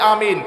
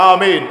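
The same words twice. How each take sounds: First: The word is said softly and quietly. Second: The word is shouted loudly. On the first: It follows how everyone in the mosque says it. The speaker calls it right. "সবাই আস্তে বলে" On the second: It goes against how everyone in the mosque says it. The speaker calls it wrong. "আপনি চিৎকার বলে বলে"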